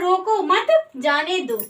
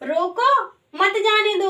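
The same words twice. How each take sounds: First: There is a pause right after the second word. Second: There is a pause right after the first word.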